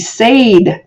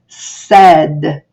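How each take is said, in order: First: The vowel is a long 'ay' sound. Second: The vowel is a short 'eh' sound. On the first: The speaker calls it wrong. "the first one does the talking, and it says its name, so this word would be said, but it's not" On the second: The speaker calls it right. "it's said"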